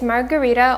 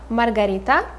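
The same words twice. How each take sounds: First: It is said with an English pronunciation. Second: It is said with a Russian pronunciation.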